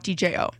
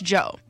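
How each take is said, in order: First: The name is said as three separate letters. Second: The name is said as one syllable. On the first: The speaker calls it wrong. "I found out it's not DJO" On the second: The speaker calls it right. "It's Joe"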